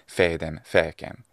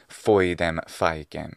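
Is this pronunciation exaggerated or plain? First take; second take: plain; exaggerated. First: The vowels are pronounced in a plain way. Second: The vowels are pronounced in an exaggerated way. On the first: "instead of" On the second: "is therefore now exaggerating this kind of language"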